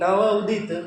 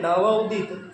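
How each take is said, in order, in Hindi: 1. दोनों हिस्सों के बीच एक छोटा सा विराम होता है। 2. दोनों हिस्सों के बीच एक छोटा सा विराम होता है।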